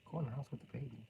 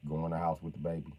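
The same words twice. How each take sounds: First: Menacing caller. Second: Said in the usual way. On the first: Acted. Caller softly threatening the wife on the phone.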